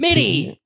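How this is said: The name is yelled angrily.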